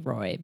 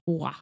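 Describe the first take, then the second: First: The name is said with an English pronunciation. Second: The name is said with a French pronunciation. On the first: "she will answer to Stephanie Roy" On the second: "In French, it's Roy"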